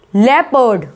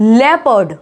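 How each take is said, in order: First: The first syllable sounds like leh. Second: The same.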